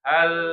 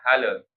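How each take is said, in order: First: The final L is held steady without release. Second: The final L bounces off with an extra vowel. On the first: The speaker calls it right. "Tapi pertengah-tengah" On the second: The speaker calls it wrong. "lidahnya itu keburu dilepas jadi bunyinya hale"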